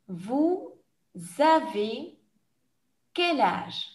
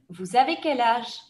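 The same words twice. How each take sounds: First: The question is said at a slow pace. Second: The question is said at a fast pace. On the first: "je vais reposer la question plus lentement" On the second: "je vais poser la question rapidement comme dans un examen"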